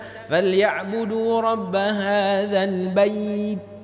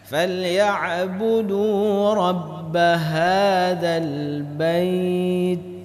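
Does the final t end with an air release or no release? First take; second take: no release; air release. First: The final t ends without an air release. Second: The final t is held, then released with air. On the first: The speaker calls it wrong. "Jangan dibaca" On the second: The speaker calls it right. "seperti itulah huruf ta"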